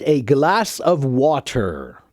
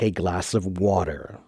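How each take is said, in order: First: It is slow, with a hard T in water. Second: It is quick, with a soft D in water. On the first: "If you say it very slowly" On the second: "if you say it more quickly and casually, then yes, the hard T becomes more of a soft D"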